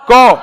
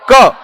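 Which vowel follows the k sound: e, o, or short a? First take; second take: o; short a. First: The consonant ends in an o-like vowel. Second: The consonant ends in a short, abrupt a. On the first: This is how it is said in the speaker's region. The speaker calls it wrong. "यानी हमारे यहां" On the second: This is the standard pronunciation. The speaker calls it right. "एक झटके से इसका उच्चारण होता है क"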